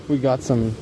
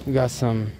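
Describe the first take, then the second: No difference in how they are said.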